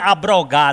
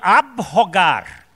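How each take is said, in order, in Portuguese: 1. A letra b está ligada ao r. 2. A letra b está separada do r. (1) "Não vinha me dizer abrogar, não" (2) "É abrogar"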